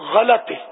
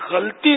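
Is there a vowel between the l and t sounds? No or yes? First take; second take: yes; no. First: A short a vowel follows the l. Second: The l runs straight into the t. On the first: The speaker calls it right. "لام پر زبر ہے غلطی" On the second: The speaker calls it wrong. "یہ غلطی نہیں ہے"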